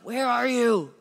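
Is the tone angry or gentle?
angry. It is said angrily, like yelling.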